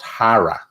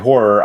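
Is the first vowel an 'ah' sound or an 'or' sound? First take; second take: ah; or. First: The first vowel is an open 'ah' sound. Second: The first vowel is an 'or' sound, run together. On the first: "it's pronounced hara" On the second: "making it run together"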